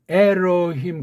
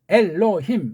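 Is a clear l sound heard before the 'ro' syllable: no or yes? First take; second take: no; yes. First: The l sound is dropped before the ro syllable. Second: A clear l closes the first syllable. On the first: This is how people living in America say it. "미국에 많이 사는 사람은 에로힘 그렇게 이제 발음하잖아요" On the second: Koreans can make this sound. "우리는 그게 돼요"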